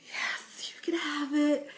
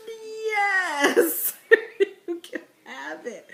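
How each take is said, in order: First: Whispered yes, giving in; a hammed-up beaten whisper; mock defeated whisper. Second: High, loud mock sob on the yes; hammed-up crying surrender; mock anguished yes. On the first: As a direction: breathe it out like you've lost. Resigned mom gives in. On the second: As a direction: pretend it breaks your heart to give it away. Giving up her sweet tea.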